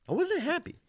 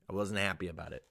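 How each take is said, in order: First: Squeaky, high-pitched insistence; high mock-indignant whine; comic protest. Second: Said in the usual way. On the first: Comic repeat of his complaint.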